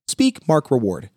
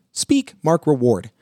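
No difference in how they are said.

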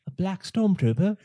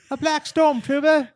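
First: A rough attempt at John Boyega's London accent, higher and rising; fumbling British accent, higher, ending on a question; mock London accent, asking in disbelief; bad Boyega accent. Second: Put-on much higher, louder London accent, falling at the end; a hammed-up Boyega, pushed up high and loud; exaggerated British accent, loud and high, in mock disbelief; bad Boyega accent. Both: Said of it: "that was a horrible version of his accent".

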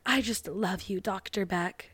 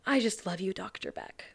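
First: Mock soft whisper. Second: Real breathy whisper, much softer. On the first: Sophie whispers to Doctor Beck while hugging, soft. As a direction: hush it into his ear. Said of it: "she weirdly whispers in his ear". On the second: Retold or imitated. Sophie hugs Doctor Beck and whispers, breathy. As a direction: breathe it into his ear. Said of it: "she whispers in his ear".

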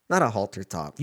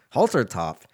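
First: Not hit firmly, halter top trailing off; correcting himself, putting weight on Not; stress on Not. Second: Said in the usual way. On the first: Shown as a demonstration. Friend corrects wrong garment, stressing Not.

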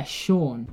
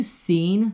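First: "Sean" said as SHAWN; "Sean" as Shawn, falling at the end; correct Sean. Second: "seen" said as SEEN for the name Sean; "seen" with a long ee in place of Shawn; mispronounced Sean. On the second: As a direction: say the name Sean wrongly as "seen", slowly, as a question. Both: Retold or imitated. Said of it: "Irish name starting with S E A".

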